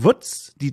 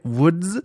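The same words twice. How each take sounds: First: Woods sounds like the German word 'Wutz'. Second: Woods is said as the English word. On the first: "so ausspreche mit meiner süddeutsch-fränkischen Art wie die Woods, das kleine Schweinchen" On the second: "Aber es heißt Wild Woods"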